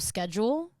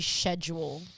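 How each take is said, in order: First: Schedule is pronounced a non-Australian way. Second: Schedule is pronounced the Australian way. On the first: "instead of schedule" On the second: "How Australians say schedule"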